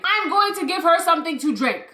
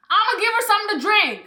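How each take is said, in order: First: "I'm going to give her something to drink" spelled out firmly; deliberate emphasis. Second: Fast casual "I'ma give her something to drink"; quick casual. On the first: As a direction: say "going to" in full, firm and deliberate. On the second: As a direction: rush "I'ma" together, fast and offhand. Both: Real, not acted.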